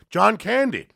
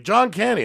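First: High mocking yell of a name; high taunting call; mock heckler yell. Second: High jeering yell of a name; high mocking call; mock heckler yell. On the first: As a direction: yell it up from a window like a jeering drunk. Heckler yelling from window. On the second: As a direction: taunt him like a heckler on the street. Heckler yells again.

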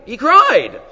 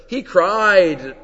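First: "cried" hit higher and louder; stress on cried. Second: Said in the usual way. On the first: Shown as a demonstration. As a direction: lean hard on "cried". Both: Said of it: "it's like emphasizing the necks".

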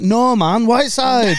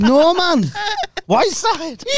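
First: Put-on lightly done Geordie accent, higher; a hint of Geordie lad. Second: Put-on much higher, broad Geordie accent. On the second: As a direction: really lean into the Geordie. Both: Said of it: "that was a Geordie accent".

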